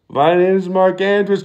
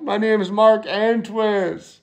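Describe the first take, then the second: First: Said in the usual way. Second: Slow panicked name. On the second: Pretend.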